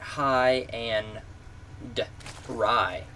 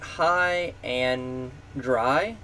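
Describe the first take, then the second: First: The name ends in the words 'end rye'. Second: The name ends in the words 'and dry'. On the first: The name means fancy rye bread. "like high end rye, like a piece of bread on a shelf" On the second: The name means being left stranded. "Like High and Dry steadfast"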